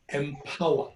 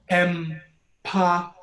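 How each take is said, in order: First: Said in the usual way. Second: "Empower" stretched slowly; slow syllable split em-pow-er; drawn out. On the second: Shown as a demonstration.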